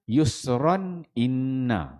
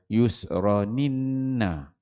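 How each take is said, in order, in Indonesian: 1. Hamzah dipertahankan sebelum kata kedua. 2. Hamzah dihilangkan dan huruf n menyambung. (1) "tahqiq ni bacaan kita yang yang biasalah" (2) "Buang huruf huruf hamzah"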